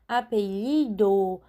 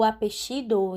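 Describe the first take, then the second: First: The double L sounds like a y sound. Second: The double L sounds like an sh sound. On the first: "pronunciado como apelido" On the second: "em alguns outros países, que tem o xeísmo"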